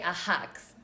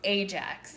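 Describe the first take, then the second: First: The word is said with a Spanish accent. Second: The word is said in standard English. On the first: The speaker calls it wrong. "my parents would say Ajax" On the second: The speaker calls it right. "but it was Ajax"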